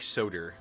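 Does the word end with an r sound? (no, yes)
yes. It ends with an added r sound.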